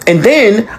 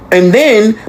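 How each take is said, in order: Both takes have the same delivery.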